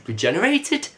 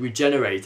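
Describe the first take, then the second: First: Regenerated? asked with a sharp high rise; puzzled question. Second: Said in the usual way. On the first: Retold or imitated. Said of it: "Bill mentioned". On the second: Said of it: "the Doctor said".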